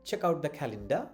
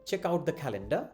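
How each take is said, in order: No difference in how they are said.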